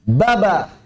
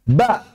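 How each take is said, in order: First: The vowel is held for two beats. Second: The vowel is held for one short beat. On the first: "Kalau dua harokat berarti" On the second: "satu harokat"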